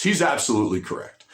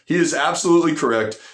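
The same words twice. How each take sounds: First: Said in the usual way. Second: Is spelled out and absolutely punched; stress on absolutely. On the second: Shown as a demonstration. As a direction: lean into absolutely to insist.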